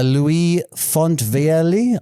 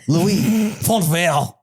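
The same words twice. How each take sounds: First: The name is said in an English accent. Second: The name is said in a French accent. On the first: "I am not going to try and pronounce that in French" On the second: "the French French accent"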